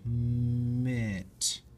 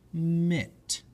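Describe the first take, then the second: First: The sounds are stretched out slowly. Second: The sounds are run together quickly. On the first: "blend the sounds"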